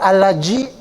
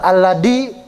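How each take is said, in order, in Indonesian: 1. Huruf tengah terdengar seperti j. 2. Huruf tengah terdengar seperti d. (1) "Bukan allaji" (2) "bukan alladi"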